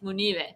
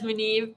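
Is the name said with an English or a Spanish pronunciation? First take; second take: Spanish; English. First: The name is said with Spanish-style pronunciation. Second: The name is said with English-style pronunciation. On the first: This is how the family says it. The speaker calls it right. "If I ask my dad how you say it, it's Munive" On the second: This is how most people say it. The speaker calls it wrong. "everyone says Munive"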